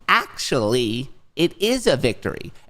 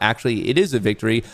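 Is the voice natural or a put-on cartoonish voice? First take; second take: put-on; natural. First: It is said in a high, childish, cartoonish voice. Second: It is read in the speaker's normal voice.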